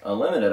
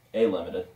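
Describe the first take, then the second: First: Said in the usual way. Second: A said as a separate "ay" before limited; stress on A. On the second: Shown as a demonstration. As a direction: say A as the letter name, not "uh". Clarifies not "unlimited" but "A limited.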